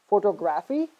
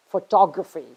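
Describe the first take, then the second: First: "photography" as pho-to-GRAF-ee; wrong stress. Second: "photography" as fuh-TOG-ruh-fee; correct stress. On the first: Teacher showing the mistake, "photography" stressed on GRAPH. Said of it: "it is not". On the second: Teacher correcting students, "photography" stressed on TOG. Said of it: "it is". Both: Shown as a demonstration.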